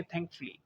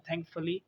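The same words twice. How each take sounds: First: Thankfully as thank-flee; schwa dropped. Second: Thankfully as thank-fuh-lee; three syllables in thankfully, schwa kept; full form. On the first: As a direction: squeeze thankfully into two syllables. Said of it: "हम उसको कर देंगे". (thankfully छोटा करके: थैंक-फ्ली) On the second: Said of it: "हम कहते हैं". (thankfully पूरा: थैंक-फ-ली) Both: Shown as a demonstration.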